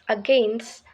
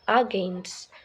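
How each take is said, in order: First: The stress is on the second syllable. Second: The stress is on the first syllable. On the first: The speaker calls it right. "the stress is on the second syllable" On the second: The speaker calls it wrong. "not against"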